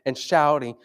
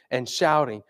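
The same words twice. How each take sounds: The two takes are said the same way.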